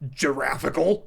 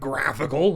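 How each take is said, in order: First: The word begins with a soft J sound. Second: The word begins with a hard G sound. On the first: The speaker calls it wrong. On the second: The speaker calls it right.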